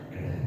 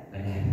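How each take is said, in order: The two takes are said the same way.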